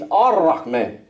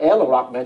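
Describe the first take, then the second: First: The article's l becomes an r sound. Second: The article keeps its l sound. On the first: The speaker calls it right. "he's Ar-Rahman" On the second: The speaker calls it wrong. "he's not El Rahman"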